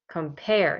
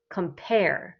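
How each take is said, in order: First: The stress is on the second syllable. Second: The stress is on the second syllable.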